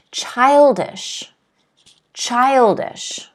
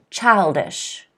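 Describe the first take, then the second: First: Put-on "Childish" with a clear ch and sh; teacher's model childish; model word. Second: Put-on softer "Childish", clear ch and sh; teacher's quiet model childish; model word. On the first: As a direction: sound out CHILD-ish carefully. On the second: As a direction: model childish for the class to repeat. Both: Shown as a demonstration. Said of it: "Can everyone repeat after me?".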